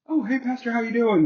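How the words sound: It sounds like a quick, casual greeting.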